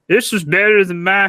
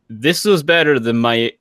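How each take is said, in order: First: It is read in a put-on voice. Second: It is read in a normal voice.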